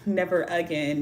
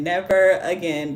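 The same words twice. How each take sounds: First: Said in the usual way. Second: NEVER again, slower and weightier; emphatic vow. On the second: Retold or imitated. Streamer vowing off crossing streets, slow stress on NEVER. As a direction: lean slowly on NEVER.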